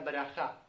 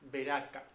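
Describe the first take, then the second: First: It is said with the Hebrew pronunciation, braja. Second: It is said as the Spanish transliteration, Beraka. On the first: "En hebreo se pronuncia braja" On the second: "Lo tenemos transliterado al español como una ciudad"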